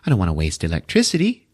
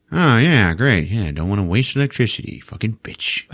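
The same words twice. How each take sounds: First: Said in the usual way. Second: Grudging, sarcastic repeat of her excuse; sarcastic echo. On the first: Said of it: "she says". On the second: Retold or imitated. Dad sarcastically echoes mom's excuse.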